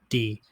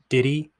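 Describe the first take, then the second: First: It is squeezed into one short syllable. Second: Two syllables, with the h sound dropped. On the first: "sometimes just D" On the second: "sounds like did he"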